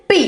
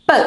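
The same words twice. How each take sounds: First: Said in the usual way. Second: "P" as a short "puh" sound; letter sound of P. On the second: Shown as a demonstration. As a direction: say "P" as the bare phonics puff, not "pee". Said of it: "What is the sound of P?".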